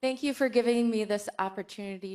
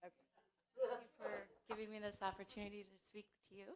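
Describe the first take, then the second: First: Loud, clearly projected thanks; raised voice, carrying to the back; speaking up. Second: Barely audible, hurried thanks; small, quick, very soft voice; too quiet. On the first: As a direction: project it so the room hears. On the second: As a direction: say it far too softly to carry. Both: Real, not acted. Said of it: "Speak up".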